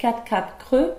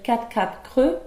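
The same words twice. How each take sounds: First: The mute e sounds are dropped. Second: The mute e sounds are dropped.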